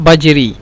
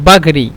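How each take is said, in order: First: The middle consonant is a j sound. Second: The middle consonant is a g sound. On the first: This is how the word is written. "লেখার ক্ষেত্রে আজরি লিখবেন" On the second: This is how people say it in speech. "উচ্চারণের ক্ষেত্রে বলবে আগরি অথবা বাগরি"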